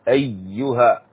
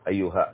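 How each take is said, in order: First: The y sound is held and doubled. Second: The y sound is short and single. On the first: The speaker calls it right. "عندنا الشدة في الياء ننتبه لها" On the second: The speaker calls it wrong. "ليس أيها كذا"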